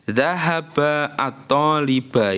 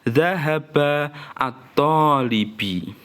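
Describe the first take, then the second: First: The last word ends in an a vowel. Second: The last word ends in an i vowel. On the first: "ini juga nggak boleh" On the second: "nggak boleh kamu baca"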